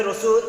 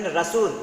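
First: রসুল as "Ro-sul", rising; correct pronunciation. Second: রাসূল with open a, "Ra-sul"; common Bengali variant. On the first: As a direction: start রসুল with a rounded o. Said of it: "উচ্চারণ হবে রসুল". (শুদ্ধ উচ্চারণে "রোসুল") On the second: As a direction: open the first vowel of রাসূল wide. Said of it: "অধিকাংশই যারা লিখেন". (আ-কার দিয়ে "রাসূল") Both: Shown as a demonstration.

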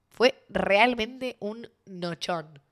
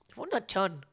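First: "realmente un nochón" stretched very slowly; drawn-out emphasis. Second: Said in the usual way. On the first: Real, not acted. Telling viewers about the big night, drawn-out stress on "nochón".

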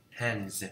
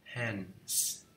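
First: "Hands" ending in a voiced z. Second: "Hands" ending in a voiceless s. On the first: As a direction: say "Hands" with a buzzed z at the end. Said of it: "S H cũng không có nè". (đọc "Hands" với âm cuối z hữu thanh) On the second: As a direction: say "Hands" with a hissed s at the end. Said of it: "Thời phong kiến phương Tây là không có". (đọc "Hands" với âm cuối s vô thanh) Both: Shown as a demonstration.

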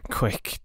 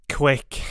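First: Breathless whisper. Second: "quick" higher and louder, falling; urgent louder plea. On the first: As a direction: gasp out "Quick" with no voice. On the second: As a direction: push "quick" out with new force. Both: Acted. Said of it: "hurriedly and with more energy".

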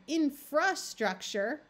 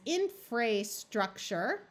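First: Infrastructure stressed on in, the middle a reduced to a schwa; correct reading. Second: Infrastructure with a long A, fra said like fray, spoken slowly; long A try. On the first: Teacher giving the right reading of infrastructure after the wrong one. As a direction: say infrastructure naturally, leaning on in. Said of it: "the in part becomes more important". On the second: Teacher trying a wrong long-A reading of infrastructure. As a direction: sound out infrastructure with a long A in the middle, as a trial reading. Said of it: "using the long A sound".

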